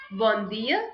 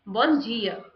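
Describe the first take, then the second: First: "Bom dia" with a plain d, dia as "dee-a"; European accent. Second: "Bom dia" with dia as "jee-a"; Brazilian accent. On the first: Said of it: "So in European accent". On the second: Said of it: "In Brazilian accent". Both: Shown as a demonstration.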